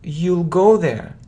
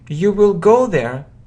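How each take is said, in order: First: Will is shortened and joined to the pronoun. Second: Will is said as a full separate word.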